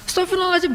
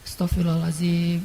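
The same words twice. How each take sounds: First: It is said in a whiny, crying voice. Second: It is said calmly and seriously.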